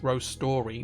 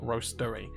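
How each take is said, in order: First: It sounds like two words, roast and story. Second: It sounds like one word ending in -ery. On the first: The name is a play on stories. The speaker calls it right. "it's roast story" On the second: It names a place where coffee is roasted. The speaker calls it wrong. "not roastery"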